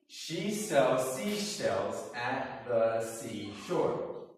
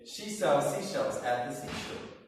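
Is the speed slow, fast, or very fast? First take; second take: slow; very fast. First: It is said at a moderate, slower pace. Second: It is said at the fastest pace.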